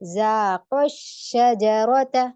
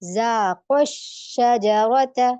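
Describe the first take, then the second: First: The long final vowel is stressed and clearly heard. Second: The same.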